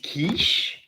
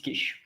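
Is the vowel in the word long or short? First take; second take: long; short. First: The vowel is drawn out long. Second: The vowel is kept short. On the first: This is the English pronunciation. "As in English it's quiche" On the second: This is the French pronunciation. "but in French it's quiche. So the the it's more short"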